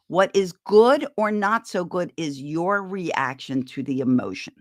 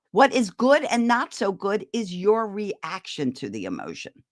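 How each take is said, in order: First: Slow, every word weighted, "good" stressed; slow emphatic repeat. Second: Said in the usual way. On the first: Shown as a demonstration. Repeating her key point to parents, slow and emphatic. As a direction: lean on "good" and let it sink in. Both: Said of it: "Think of that".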